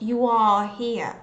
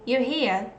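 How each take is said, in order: First: 'You are' is said as two full words. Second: 'You are' is contracted to a reduced 'you're'. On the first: "not you are here" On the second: "you can hear me saying"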